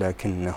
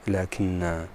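First: The word ends with a short final vowel. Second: The word ends with a long final vowel. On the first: The word runs on into the next words. "وبالوصل لكن هو الله ربي" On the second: The word stands at a pause. "ويثبت بالوقف لكن هكذا"

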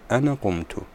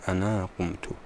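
First: The first word ends in a short vowel. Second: The first word ends in a long vowel. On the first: "البعض يقول أنا قمت" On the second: "لا يقول أنا قمت"

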